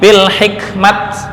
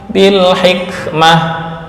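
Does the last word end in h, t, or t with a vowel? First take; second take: t; h. First: The word ends with a bare t sound. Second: The word ends with a soft h sound. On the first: The speaker calls it wrong. "Atau ini bil hikmat, enggak" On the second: The speaker calls it right. "jika akhirnya berupa hak taknis"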